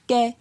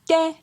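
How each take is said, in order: First: The syllable is said on a mid tone. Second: The syllable is said on a high tone. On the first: "Pour un ton moyen" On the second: "Pour un ton haut"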